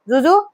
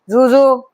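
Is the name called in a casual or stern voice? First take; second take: casual; stern. First: The name is called casually, like a question. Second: The name is called in a stern mom voice.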